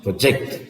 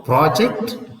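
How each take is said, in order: First: ProJECT, weight on JECT in "project"; stress on second syllable. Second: PROject, weight on PRO in "project"; stress on first syllable. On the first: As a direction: lean on the last syllable of "project". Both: Shown as a demonstration. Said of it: "So therefore".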